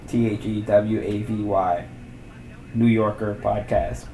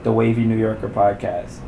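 First: "T H E W A V Y" spelled letter by letter, then "New Yorker Podcast" said slowly. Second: Said in the usual way. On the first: Shown as a demonstration. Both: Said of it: "One word".

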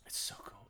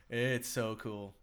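First: Breathy whisper of it's so cool; hushed awe. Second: Drawn out slowly, relishing it; slow, dreamy delivery; slow savoring. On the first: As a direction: whisper it like a secret. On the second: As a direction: stretch each word out in awe. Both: Shown as a demonstration. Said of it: "repeats phrase in varied ways".

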